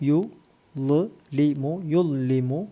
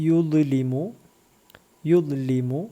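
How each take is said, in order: The two takes are said the same way.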